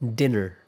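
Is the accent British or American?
American. It is said in an American accent.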